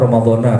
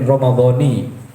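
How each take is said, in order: First: The word ends with an 'a' vowel. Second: The word ends with an 'i' vowel. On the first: It follows the usual rule for this word type. "harusnya kan Ramadhana karena ini sembur munsharif" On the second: It is read this way in the poem. "Bisukunil mim wa kasrin nun Ramadhani"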